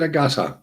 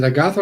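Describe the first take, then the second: First: Agatha with a hard t, no th; T pronunciation. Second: "Agatha" with th as in "think"; TH pronunciation. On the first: Streamer asks Miss Elephant Hunted, Agatha with a plain T. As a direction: say "Agatha" as "a-GAH-ta". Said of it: "just pronounce the T". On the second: Streamer asks Miss Elephant Hunted, Agatha with th. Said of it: "with a T H". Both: Shown as a demonstration.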